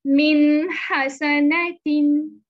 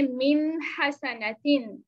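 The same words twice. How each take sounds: First: मिन हसनतिन very slow and much louder, the न of मिन clear and short; izhar recitation. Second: Slow मिन हसनतिन, the न of मिन clear; Quran recitation. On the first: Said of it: "इजहार कर देंगे". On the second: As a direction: read मिन हसनतिन slowly. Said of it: "next example में देखें". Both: Shown as a demonstration.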